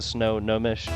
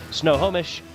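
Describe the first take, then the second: First: An n sound begins the second part. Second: No n sound begins the second part. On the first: The speaker calls it wrong. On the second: The speaker calls it right.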